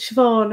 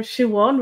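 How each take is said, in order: First: Said in the usual way. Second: Siobhan as "shoo-WAWN", with a w; variant name pronunciation. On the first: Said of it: "really pronounced as Siobhan in, in Ireland". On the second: Shown as a demonstration. Reading a viewer's question about the name, variant pronunciation. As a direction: say Siobhan without the v, "shoo-awn". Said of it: "an unusual pronunciation".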